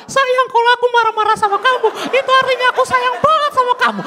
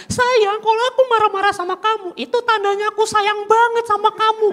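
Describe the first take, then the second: First: Much higher, sugary girlfriend impression; mocking girlfriend voice. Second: High, sugary imitation of a girlfriend; mocking girlfriend voice. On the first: Comedian redoing the girlfriend line, higher mock coo. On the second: Comedian imitating his girlfriend, high mock coo. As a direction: mimic the girlfriend cooing her excuse. Girlfriend quoted in stand-up bit.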